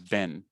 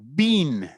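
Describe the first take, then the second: First: The vowel is not an 'ee' sound. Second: The vowel is a long 'ee' sound. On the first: The speaker calls it right. "they're not pronounced E" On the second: The speaker calls it wrong. "This one is not bean"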